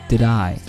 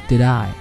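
No difference in how they are said.

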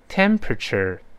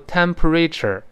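First: The stress falls on the first syllable. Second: The stress falls on a later syllable. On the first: The speaker calls it right. "跟老师大声读一遍" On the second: The speaker calls it wrong. "不要读temperature 不能这么读注意重音在第一个音节"

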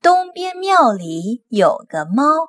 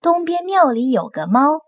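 First: It is said slowly, line by line. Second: It is said at a faster speed.

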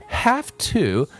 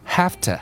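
First: The word 'to' is said fully. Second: The word 'to' is reduced.

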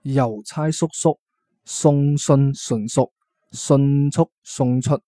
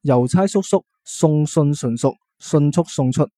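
First: It is said at a slower pace. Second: It is said at a faster pace.

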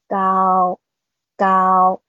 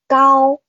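First: The word is said at a slightly lowered pitch. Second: The word is said at a normal high pitch.

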